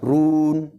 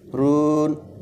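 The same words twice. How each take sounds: First: The syllable is pronounced thick and heavy. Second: The syllable is pronounced thin and light. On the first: The speaker calls it wrong. "berarti dijadikan tebal" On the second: The speaker calls it right. "berikan sifatnya yang tipis"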